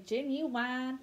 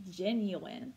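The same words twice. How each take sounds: First: "genuine" said the playful way people use for fun; fun mispronunciation. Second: "genuine" said properly, ending in a short plain "in"; correct pronunciation. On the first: Teacher showing the fun way kids say "genuine". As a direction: say "genuine" as a silly joke pronunciation. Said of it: "Some people like to say genuine for fun". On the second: Teacher correcting the word "genuine" for students. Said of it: "but it is genuine". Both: Shown as a demonstration.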